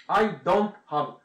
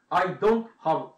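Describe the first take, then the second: No difference in how they are said.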